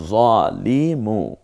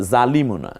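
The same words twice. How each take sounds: First: জলিমু, very slow, with a short জ; slow correct Arabic. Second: জালিমু with a long জা, as the mistake; wrong long vowel. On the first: Teacher models জলিমু slowly as the right reading. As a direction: stretch out জলিমু, keeping the জ short. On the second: Teacher names জালিমু as the wrong reading, long vowel. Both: Shown as a demonstration.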